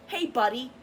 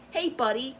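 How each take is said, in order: First: Fake-friendly "Hey, buddy", higher on "Hey"; mock friendly greeting. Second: Fake-friendly "Hey, buddy" again, rising on "Hey"; mock friendly greeting. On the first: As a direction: sneer a sweet fake hello. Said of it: "act like they're all". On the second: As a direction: mimic their sugary fake hello. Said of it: "they'll dead ass say that".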